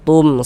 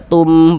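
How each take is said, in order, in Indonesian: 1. Bunyinya dipotong pendek. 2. Bunyinya dibaca panjang. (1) "begitu pendek" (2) "jangan dibaca tum panjang"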